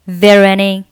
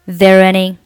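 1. 这些单词连成一个连读的整体。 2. 这些单词连成一个连读的整体。

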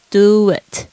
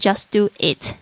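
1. w 音把两个词连在一起。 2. 两个词分开念，中间没有滑音。

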